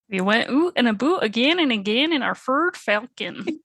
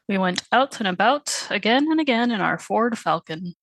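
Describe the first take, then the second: First: It is read in an exaggerated Canadian accent. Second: It is read in a plain, neutral accent.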